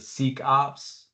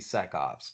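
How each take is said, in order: First: The first syllable has a long 'ee' vowel. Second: The first syllable has a short 'e' vowel. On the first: The speaker calls it wrong. "did you catch the pronunciation on the Seek Ops?" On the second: The speaker calls it right. "is that supposed to be SecOps?"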